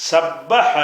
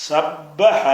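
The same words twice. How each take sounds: The two takes are said the same way.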